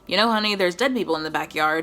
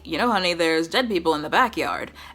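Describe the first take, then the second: First: The sentence is said plainly, without special stress. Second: Strong stress falls on the word backyard.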